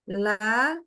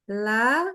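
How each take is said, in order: The two takes are said the same way.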